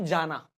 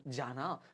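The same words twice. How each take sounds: First: Said in the usual way. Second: Soft, tender call of a loved one; जाना, whispered-soft and loving with a gentle rise; said lovingly. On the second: Shown as a demonstration. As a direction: say it softly, like calling someone dear. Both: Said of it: "पर प्यार से थोड़ा सा बोलूं".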